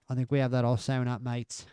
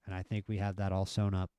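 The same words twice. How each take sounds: First: A hammed-up British accent, higher pitched; bad British accent. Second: Said in the usual way. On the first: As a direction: try a British accent that drifts Australian. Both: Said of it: "The horrible British accent".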